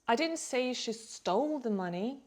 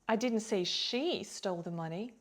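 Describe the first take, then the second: First: The stress is on the word "stole". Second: The stress is on the word "she". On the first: She took it some other way, perhaps borrowing. "maybe she borrowed it" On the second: Another person stole it. "maybe another person did"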